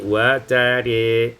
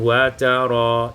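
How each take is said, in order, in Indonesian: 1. Vokal akhirnya condong ke e. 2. Vokal akhirnya adalah a terbuka.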